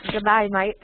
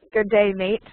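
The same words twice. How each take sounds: First: Aussie accent, "day" like "die"; Australian demo with "mate" like "might"; put-on Aussie greeting. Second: Said in the usual way. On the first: Shown as a demonstration. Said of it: "have you heard an Australian accent?".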